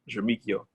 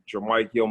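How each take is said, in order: First: The name is pronounced the French way. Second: The name is pronounced the American English way. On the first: "it's the other way... it's French" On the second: "It's the American way"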